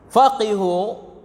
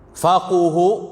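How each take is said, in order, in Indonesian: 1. Vokal setelah q adalah i. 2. Vokal setelah q adalah u. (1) "dengan dikasrahkan qaf" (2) "dibaca dengan dhammah pada qaf"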